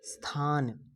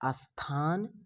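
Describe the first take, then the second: First: The word starts directly with the consonant cluster. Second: An extra vowel is added before the opening cluster. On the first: The speaker calls it right. "शुद्ध है" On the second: The speaker calls it wrong. "अशुद्ध है"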